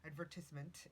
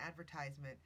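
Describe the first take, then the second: First: "advertisement" with a short "tiz"; British-style "advertisement", short i in the third syllable. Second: "advertisement" with "tize" in the middle; American-style "advertisement", long i in the third syllable. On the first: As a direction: say "advertisement" as "ad-VER-tiz-ment". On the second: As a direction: say "advertisement" as "AD-ver-TIZE-ment". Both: Shown as a demonstration. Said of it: "advertisement or adver".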